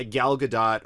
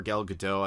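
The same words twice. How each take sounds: First: "Gadot" with a sounded final T. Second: "Gadot" with a silent T; final t silent. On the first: Reviewer offering one pronunciation of the actress's name, "Gadot" with the T sounded. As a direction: say "Gadot" ending in a clear "dot". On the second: Reviewer offering the other pronunciation of the actress's name, "Gadot" with the T silent. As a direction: say "Gadot" ending in "doh". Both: Shown as a demonstration. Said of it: "heard it pronounced both ways".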